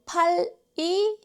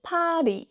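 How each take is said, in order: First: 팔이 split as pal, i; unlinked syllables. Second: 팔이 joined as pa-ri, higher pitched; linked pronunciation. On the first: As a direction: hold the final ㄹ of 팔이 apart from the vowel. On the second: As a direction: flow the ㄹ of 팔이 into the vowel. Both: Shown as a demonstration. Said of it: "And 팔이 becomes".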